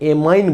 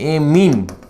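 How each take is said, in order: First: The second vowel sounds like 'eye'. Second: The second vowel sounds like 'ee'. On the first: The speaker calls it wrong. "कई pronunciation एमाइन बोलते हैं" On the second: The speaker calls it right. "इसका सही pronunciation एमीन बोलते हैं"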